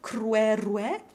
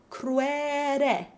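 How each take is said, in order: First: A W sound comes before both open E vowels. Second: Only the first syllable has a W sound. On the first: "with W open E in both syllables" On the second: "only using the W in the first syllable"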